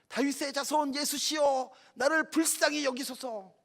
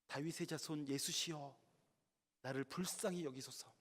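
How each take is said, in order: First: It is shouted louder than before. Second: It is called out at a normal volume.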